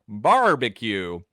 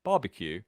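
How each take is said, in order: First: "Barbecue" in Texan, very strong R; slow, louder Texas "Barbecue", R drawn out; exaggerated Texan with a hard, held R; Texas accent. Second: "Barbecue" British, with no R sounded; plain British pronunciation, R left silent; British accent. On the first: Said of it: "you need a really strong R". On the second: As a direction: drop the R in "Barbecue" like a Brit. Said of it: "if you wanna say barbecue as a British person, just remove the R". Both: Shown as a demonstration.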